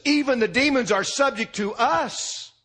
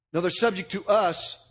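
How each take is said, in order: First: "even" lifted and leaned on, higher; stress on even. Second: "us" pressed and falling at the end; stress on us. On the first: Preacher showing the misreading, stress on "even". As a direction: push "even" as the wrong emphasis. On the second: Preacher correcting the emphasis, stress on "us". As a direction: land hard on "us". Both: Shown as a demonstration. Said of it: "they do not say".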